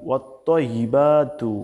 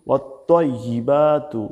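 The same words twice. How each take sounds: No difference in how they are said.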